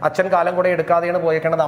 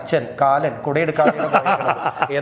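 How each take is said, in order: First: The phrase runs together without breaks. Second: The phrase is broken up with pauses. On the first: It sounds like ordinary speech. "അമ്മ പറഞ്ഞാൽ നമ്മൾ ചിരിക്കില്ല" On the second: It sounds funny. "നിർത്തി പറയുമ്പോൾ"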